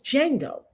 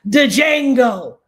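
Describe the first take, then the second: First: The D at the start is silent. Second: The D at the start is pronounced. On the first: The speaker calls it right. "The D is silent" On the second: The speaker calls it wrong. "Stop pronouncing the D"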